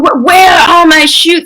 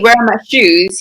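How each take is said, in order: First: It is said in a loud, high-pitched voice. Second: It is said in a calm, normal voice. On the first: "my son always speaks in a high pitched tone" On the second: "I would calmly be like"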